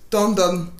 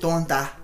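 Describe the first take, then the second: First: The name ends in a nasal 'on' sound. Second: The name ends in an open 'a' sound. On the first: This is the local Marantais way of saying it. "Ceux qui sont marantais vont comprendre" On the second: This is the standard French way of saying it. "en français, c'est tonda"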